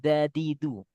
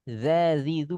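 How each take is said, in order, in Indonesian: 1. Suku kata tengah dimulai dengan bunyi d. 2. Suku kata tengah dimulai dengan bunyi z. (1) "bukan zadizu" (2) "Zazizu bukan zadizu"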